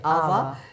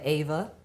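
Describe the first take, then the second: First: The name is pronounced the German way. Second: The name is pronounced the usual English way. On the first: This is how German speakers say the name. "They say it Ava" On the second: This is not how German speakers say the name. "they don't say the Ava"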